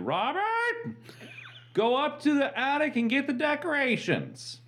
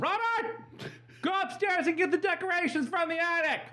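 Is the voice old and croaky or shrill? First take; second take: croaky; shrill. First: It sounds like an old, croaky voice. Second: It sounds like a high, shrill voice.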